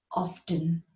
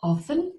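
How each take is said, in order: First: "often" with a silent T, OFF-en; the second way, "often" without T. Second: "Often" with a sounded T, OFF-ten; the first way, "Often" with T. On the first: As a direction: say "often" slowly, the T left silent. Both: Shown as a demonstration. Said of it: "pronounce it in two ways".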